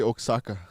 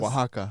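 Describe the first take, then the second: First: It is said sounding like 'Osaka'. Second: It is said the standard way, unlike 'Osaka'. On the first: The speaker calls it wrong. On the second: The speaker calls it right.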